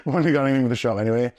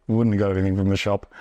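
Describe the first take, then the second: First: Repeated quickly through a laugh. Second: Said in the usual way. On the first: Shown as a demonstration. Repeating the shop line to the host, fast and laughing. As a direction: rush it out while laughing. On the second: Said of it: "repeated with a laugh".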